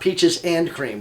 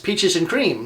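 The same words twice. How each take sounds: First: The word 'and' is pronounced fully and clearly. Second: The word 'and' is reduced to a short 'n'. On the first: The speaker calls it wrong. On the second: The speaker calls it right.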